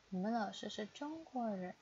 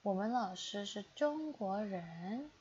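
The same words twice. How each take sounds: First: Said in the usual way. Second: Slow, careful model reading of 我们老师是中国人. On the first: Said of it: "slow take before". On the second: Shown as a demonstration. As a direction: read 我们老师是中国人 slowly, syllable by syllable, for learners. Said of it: "repeated at normal pace".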